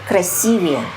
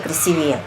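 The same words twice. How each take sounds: First: The stress is on the second syllable. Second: The stress is on the third syllable. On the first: The speaker calls it right. "Всегда нужно говорить красивее" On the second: The speaker calls it wrong. "Никак не красивее"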